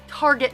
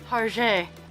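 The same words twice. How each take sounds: First: It is said with a plain English pronunciation. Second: It is said with a mock-French pronunciation. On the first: This is the ordinary local way to say it. The speaker calls it right. "It's like it's like Target" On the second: This is a fancy, French-sounding way to say it. The speaker calls it wrong. "not Target"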